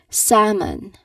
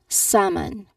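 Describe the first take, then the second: First: The L is silent in the word. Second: The same.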